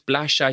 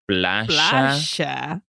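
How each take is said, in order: First: The word is said in a warm, pleasant tone. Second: The word is said in a condescending, scornful tone. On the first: The place is enjoyed and appreciated. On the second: The place is looked down upon.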